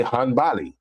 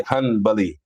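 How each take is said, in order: First: "Hanbali" said hun-BAH-lee, with an open middle A; local pronunciation of Hanbali. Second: "Hanbali" said HUN-buh-lee, with a reduced middle vowel; rejected pronunciation of Hanbali. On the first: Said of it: "We say Hanbali". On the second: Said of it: "we don't say Hanbali". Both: Shown as a demonstration.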